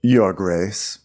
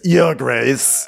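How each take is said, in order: First: Restrained, lower passive-aggressive goodbye. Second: Mock-angry parting shot. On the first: Acted. Otto taking leave of the king, passive-aggressive. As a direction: say it as a veiled slight. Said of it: "most passive-aggressive goodbye". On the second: Otto saying goodbye before walking off, angry. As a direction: put curt anger into the title. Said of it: "like, an angry".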